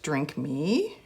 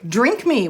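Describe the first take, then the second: First: Lower, softer, stretched "Drink me." with a rise; hushed drawn-out read. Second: Said in the usual way. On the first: Real, not acted. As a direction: breathe "Drink me." low and soft like a spell. Rereading label, drawn out.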